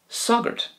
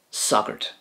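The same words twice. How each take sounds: First: Sogert said again alone, high and breathy; repeated for learners. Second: Said in the usual way. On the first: Shown as a demonstration. Teacher repeating sogert high for learners. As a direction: give sogert once more, high and soft. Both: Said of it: "The Irish for priest is sogert".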